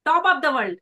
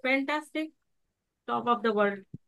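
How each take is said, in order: First: Proud, positive declaration; louder, happy boast; upbeat confidence. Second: Limp, subdued claim to be great; dull, the opposite. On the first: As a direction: announce it brightly and confidently. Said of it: "body language". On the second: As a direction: say it lazily, with no belief. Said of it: "लेकिन यदि इसका उल्टा करें". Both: Shown as a demonstration.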